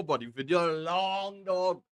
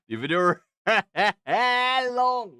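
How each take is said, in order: First: Said in the usual way. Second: Loud, high, laughing emphasis; laughing exclamation. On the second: Real, not acted. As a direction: burst out laughing mid-phrase. Repeats it, laughing, much louder.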